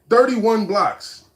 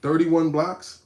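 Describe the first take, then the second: First: "Thirty-one blocks" said slowly with a falling tune; flat statement. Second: "Thirty-one blocks?" slowly, rising at the end in disbelief; incredulous question. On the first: Streamer repeating a chatter's block count to the stream, slow falling statement. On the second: Streamer questioning a chatter's count in disbelief, slow rising question. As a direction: ask "Thirty-one blocks?" back with a doubting rise. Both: Shown as a demonstration.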